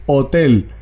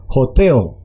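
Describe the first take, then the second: First: "hotel" with a silent H, as in Spanish; pronunciación española. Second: "hotel" with the H sounded like Spanish J, stress on the second syllable; pronunciación holandesa. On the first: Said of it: "no se pronuncia como en español". ("hotel" a la española, con hache muda) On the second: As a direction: Dutch "hotel": raspy-J H, emphasis on TEL. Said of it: "H tiene un sonido de J". ("hotel" con hache como jota y énfasis en la segunda sílaba) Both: Shown as a demonstration.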